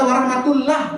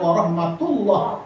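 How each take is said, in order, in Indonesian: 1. Bunyi r-nya dibaca tipis dan ringan. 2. Bunyi r-nya dibaca tebal dan penuh. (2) "Ro tafkhim"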